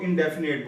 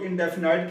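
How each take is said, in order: First: इंडेफिनिट ending roughly like "nate" or "net"; last syllable of इंडेफिनिट with an "e" sound, not "ite"; majority pronunciation. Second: इंडेफिनाइट ending in "ite" as in "night"; last syllable of इंडेफिनाइट rhymes with "kite"; some people's pronunciation. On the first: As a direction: say इंडेफिनिट without any "eye" vowel. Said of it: "बहुत से लोग इंडेफिनिट बोलते हैं". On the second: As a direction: give इंडेफिनाइट an "eye" vowel at the end. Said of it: "कुछ लोग इंडेफिनाइट कहते हैं". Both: Shown as a demonstration.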